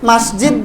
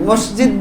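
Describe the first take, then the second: First: The first syllable has an 'a' vowel: mas. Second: The first syllable has an 'o' vowel: mos. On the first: This is the original Arabic form. The speaker calls it right. "মসজিদ বলবেন" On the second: This is the local everyday form. The speaker calls it wrong. "মসজিদ বলবেন না।"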